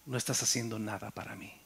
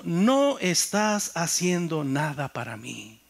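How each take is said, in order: First: Hushed, softer voice of God; soft inner voice delivering "No estás haciendo nada para mí". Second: Slow, deliberate "No estás haciendo nada para mí", "no" leaned on; slow weighty repeat of "No estás haciendo nada para mí"; emphatic repeat. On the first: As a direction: let God's rebuke fall quietly, almost inward. God's voice spoken to his heart. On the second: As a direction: spell out God's rebuke word by word. God's words repeated with emphasis. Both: Retold or imitated.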